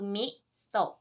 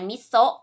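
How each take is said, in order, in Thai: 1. คำว่า มิโซะ ออกเสียงตามระดับเสียงสูงต่ำแบบญี่ปุ่น 2. คำว่า มิโซะ ออกเสียงตามวรรณยุกต์ไทย (1) "แต่ในภาษาญี่ปุ่นนะคะ...ก็คือมิโซะ" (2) "เวลาเราอ่านมิโซะเป็นเสียงในภาษาไทย"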